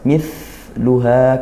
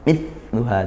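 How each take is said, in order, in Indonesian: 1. Bunyi 'th' mendesis dengan udara yang keluar. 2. Bunyi 'th' ditekan dan udaranya tertahan. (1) "Didesiskan juga" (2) "tidak bisa malah mampet"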